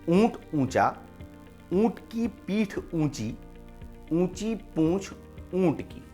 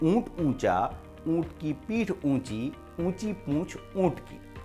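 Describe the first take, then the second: First: It is said at a slow, careful pace. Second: It is said at a slightly quicker pace.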